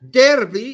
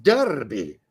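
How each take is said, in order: First: Said in the usual way. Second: "derby" said the English way, as DAR-bee; drawn-out "derby" with an "ar" vowel; English pronunciation. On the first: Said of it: "brings up another English pronunciation". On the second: Shown as a demonstration. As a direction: say "derby" as darby. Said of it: "Derby is pronounced derby".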